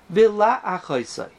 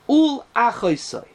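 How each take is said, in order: First: The vowel after the L is short and weak. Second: The vowel after the L is full and strong. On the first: "you don't say the a so strong" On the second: "with a strong strong patach"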